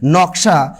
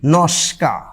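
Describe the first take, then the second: First: The middle cluster is k before sh. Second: The middle cluster is s before k. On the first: "নকশা হয়ে যাবে" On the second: "হয়ে যাবে কি নস্কা"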